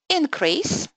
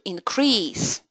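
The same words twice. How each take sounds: First: The stress is on the first syllable. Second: The stress is on the second syllable. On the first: It names a thing. "stress on the first syllable uh, indicates that you're talking about nouns" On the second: It names an action. "to increase action"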